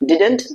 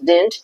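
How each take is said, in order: First: An extra vowel is heard between d and n. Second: No vowel is heard between d and n. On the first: "এই উচ্চারণটা আসলে আপনি ডিডেন্ট বলতে পারেন" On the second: "আবার ডিডন্ট বলতে পারেন"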